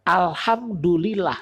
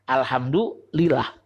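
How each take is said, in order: First: Alhamdulillah drawn out slowly, falling at the end. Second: Alhamdulillah drawn out slowly and lower, falling. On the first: Preacher teaching the crowd, drawn-out alhamdulillah. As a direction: stretch out alhamdulillah, then let it fall. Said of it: "kalau kita paham satu kata aja". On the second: Preacher repeating the word, low, slow alhamdulillah. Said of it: "dua kata tuh ya". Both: Shown as a demonstration.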